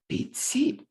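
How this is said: The stress falls on the second word. "stress on the syllable containing the target sound"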